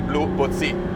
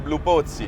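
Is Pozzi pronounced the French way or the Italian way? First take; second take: French; Italian. First: The name is said with French pronunciation. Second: The name is said with Italian pronunciation. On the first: The speaker calls it right. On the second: The speaker calls it wrong.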